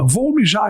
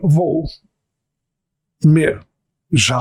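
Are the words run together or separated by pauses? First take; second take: run together; separated. First: The words run together without any pauses. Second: Each word is separated by a clear pause. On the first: It sounds like an unintended vulgar word. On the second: It avoids the unintended vulgar word.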